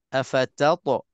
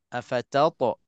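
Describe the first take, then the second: The two takes are said the same way.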